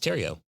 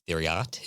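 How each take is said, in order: First: It starts with t and ends in o. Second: It starts with th and ends in t. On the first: The speaker calls it right. "but it's Terrio" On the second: The speaker calls it wrong. "if it was pronounced the way it's spelled"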